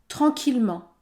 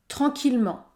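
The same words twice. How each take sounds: Both takes have the same delivery.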